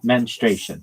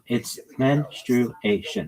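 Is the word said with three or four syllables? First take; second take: three; four. First: The word is said with three syllables. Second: The word is said with four syllables. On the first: The speaker calls it wrong. "not menstruation. That's not right" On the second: The speaker calls it right. "It's four syllables"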